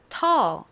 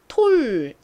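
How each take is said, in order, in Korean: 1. 이 모음은 입술을 둥글게 하지 않는 'uh'처럼 들립니다. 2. 이 모음은 입술을 둥글게 한 'oh'처럼 들립니다. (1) "all 소리가 나는구나" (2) "all이 아니라 톨"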